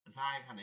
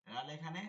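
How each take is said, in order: First: Buzzing z on যা, pitched lower; tongue tip to lower teeth for যা. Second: Tongue tip on upper teeth for লাল; zal at upper teeth. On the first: Teacher repeating za's place, buzzed z. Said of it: "সানাই সুফলা দাঁতের অগ্রভাগ". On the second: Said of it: "একটা হচ্ছে উপরের দাঁত". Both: Shown as a demonstration.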